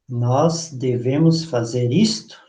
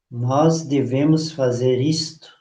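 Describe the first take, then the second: First: It rises at the end like a question. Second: It falls at the end like a statement.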